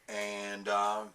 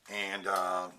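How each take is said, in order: No difference in how they are said.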